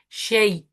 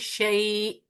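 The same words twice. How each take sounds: First: The vowel is held short, normal length. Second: The vowel is drawn out and lengthened. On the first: The speaker calls it wrong. "I can't say shay" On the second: The speaker calls it right. "I would have to say shay. Now this has become a mad"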